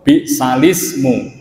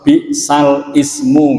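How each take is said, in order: First: Ismu is joined to the word before. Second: Ismu is said separately with its own initial vowel. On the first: The speaker calls it right. "Maosipun bi'salismu" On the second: The speaker calls it wrong. "Niki mboten diwaos bi'sal ismu"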